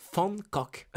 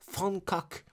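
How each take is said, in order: First: The name is said with Dutch sounds. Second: The same.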